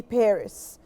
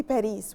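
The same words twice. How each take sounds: First: Paris stressed up front, "PAIR-iss"; short second syllable in Paris, "PAIR-iss"; English pronunciation. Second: Paris as "pa-REES", long ee at the end; non-English pronunciation. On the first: Teacher correcting to English, Paris as "PAIR-iss". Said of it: "we say Paris". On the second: Teacher showing what English doesn't say, Paris as "pa-REES". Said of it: "in English we don't say Paris". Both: Shown as a demonstration.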